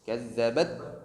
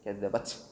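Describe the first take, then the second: First: The final t is held and pressed before release. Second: The final t is only breathed out, sounding s-like. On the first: The speaker calls it right. "Kuat penekanan di makhraj huruf ta" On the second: The speaker calls it wrong. "asal aja dikeluarkan, yang penting ada nafasnya terdengar"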